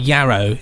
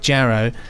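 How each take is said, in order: First: The name begins with a Y sound. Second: The name begins with a J sound. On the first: The speaker calls it wrong. "I went straight to Yarrow" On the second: The speaker calls it right. "That's Ja and not Ya"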